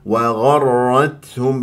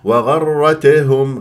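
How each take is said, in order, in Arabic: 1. في الـ t همسة خفيفة ناعمة فقط. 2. يُنطق الـ t مع ارتداد زائد. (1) "لا تبالغ ولا تقلقل" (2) "غلط"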